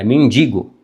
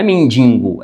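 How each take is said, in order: First: "mendigo" with a clean oral i, men-DI-go; pronúncia correta de mendigo. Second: "mendigo" said with a nasal second syllable, men-DIN-go; pronúncia errada de mendigo. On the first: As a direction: say "mendigo" without an n before the g. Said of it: "é mendigo". ("mendigo" certo, sem n na segunda sílaba) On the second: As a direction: slip an extra n into "mendigo". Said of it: "Não é mendigo". ("mendigo" errado, como mendingo) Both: Shown as a demonstration.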